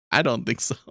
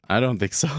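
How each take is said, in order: First: Laughing through the repeated answer; chuckle, then say it again amused. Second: Said in the usual way. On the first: Real, not acted.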